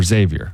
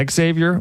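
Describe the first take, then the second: First: Xavier starting straight on "ZAY". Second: Xavier starting "ex-ZAY", two sounds up front; X said as a letter. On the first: Host offers the other way to co-host, saying Xavier as ZAY-vee-er. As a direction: say Xavier with no "ex" in front. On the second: Host checks the school's name with co-host, saying Xavier as ex-ZAY-vee-er. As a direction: say Xavier with a leading "ex". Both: Shown as a demonstration. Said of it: "Is it Xavier or Xavier?".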